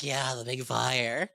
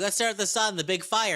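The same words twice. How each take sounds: First: Slow, lower, dazed goblin yes; dopey agreement. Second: Eager, pitched-up goblin suggestion; excited goblin. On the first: Goblin crowd agreeing to stare at the sun, slow and dopey. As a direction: drag it out like a dim goblin in awe. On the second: Goblin urging the others to stare at the sun, eager. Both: Retold or imitated.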